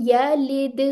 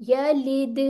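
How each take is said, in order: The two takes are said the same way.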